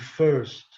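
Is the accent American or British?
American. It is said in an American accent. "no inglês americano"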